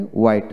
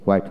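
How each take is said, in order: First: হোয়াইট said as "wait", with no h; British plain w in হোয়াইট; British pronunciation. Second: হোয়াইট said with h before the w; American hw in হোয়াইট; American pronunciation. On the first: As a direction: drop the h from হোয়াইট. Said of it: "হোয়াইট হলো British". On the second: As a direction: sound the h opening হোয়াইট. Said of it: "হোয়াইট হলো American". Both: Shown as a demonstration.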